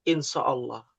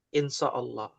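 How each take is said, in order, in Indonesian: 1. Konsonan pertama itu bunyi s yang berat dan emfatis. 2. Konsonan pertama itu bunyi s yang berat dan emfatis.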